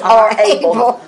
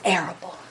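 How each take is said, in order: First: It is said as two words, 'our able'. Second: It is said the usual way, starting like 'air'.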